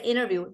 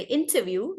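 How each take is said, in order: First: Interview as "innerview", no T; American rolled T. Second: Interview with the T clearly sounded; British T. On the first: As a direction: swallow the T in interview, American style. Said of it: "Americans roll their T's also". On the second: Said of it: "They will not say interview like British". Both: Shown as a demonstration.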